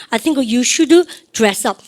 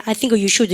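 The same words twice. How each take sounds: First: Very slow, each word spaced for the class; drawn out so students can repeat after; very slow model phrase. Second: Said in the usual way. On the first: Shown as a demonstration. Teacher modelling for class repetition, very slow. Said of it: "시작". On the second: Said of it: "해보세요".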